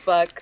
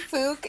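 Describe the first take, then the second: First: The vowel sounds like the one in 'duck'. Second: The vowel sounds like the one in 'book'. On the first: This is the official way to say the name. "It's pronounced fuck" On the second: The speaker is embarrassed to say the name. "People people do say fook if they feel embarrassed"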